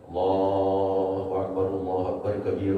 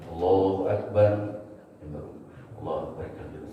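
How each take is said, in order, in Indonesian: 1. Frasa-frasanya tersambung tanpa jeda. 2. Ada jeda di antara frasa-frasa itu. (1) "diwasol namanya itu" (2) "disaktah, berhenti dulu"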